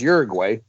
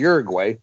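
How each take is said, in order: First: The name is pronounced with English sounds. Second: The name is pronounced with English sounds.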